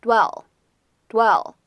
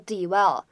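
First: "dwell" with the D lightly touched, gliding into "well"; "dwell" slowly, the D barely leaned on. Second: "dwell" with a heavy, separate D, like "dee-well"; "dwell" wrongly broken into two syllables; mispronounced D. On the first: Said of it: "轻轻带一下就可以了". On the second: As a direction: show the mistake: "dwell" split after an over-voiced D. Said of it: "不要读成". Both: Shown as a demonstration.

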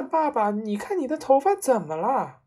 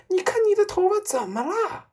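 First: Raised pitch, falling at the end; milder shriek than a full scream; alarmed boyish cry. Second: Very high, loud scream rising at the end; horrified shriek. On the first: Son cries out to his father about the hair, alarmed. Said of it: "儿子也叫起来". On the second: Mother screams at her husband about his hair, shrieking. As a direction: shriek the question in panic. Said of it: "妈妈用发着抖的手指指着她丈夫尖 声叫道". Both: A narrator's reading.

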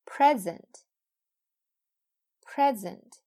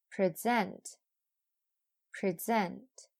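First: "Present" with loud, high PREZ, falling on ent; "Present" as a noun: PREZ-ent, said twice; noun stress on first syllable. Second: "Present" with reduced pri, weight on ZENT; "Present" as a verb: pri-ZENT, said twice; verb stress on second syllable. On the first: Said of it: "前面是名词，后边是动词". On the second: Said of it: "后边是动词". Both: Shown as a demonstration.

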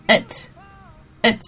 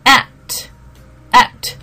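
First: "it" flat, weak vowel, mouth barely open; reduced "at" sounding like "it"; weak form at. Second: "At" with an open a, mouth wide; "at" with a wide, open a sound; full vowel at. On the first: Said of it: "嘴型没有那么大". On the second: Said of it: "大多数人会念成什么". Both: Shown as a demonstration.

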